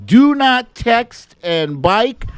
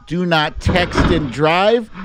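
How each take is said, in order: First: Drawn-out high, slow warning voice; hammed-up slow-motion caution; mock slow-mo warning. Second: Said in the usual way. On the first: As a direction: stretch it like a slowed-down public service ad. Jokey slow-mo safety warning.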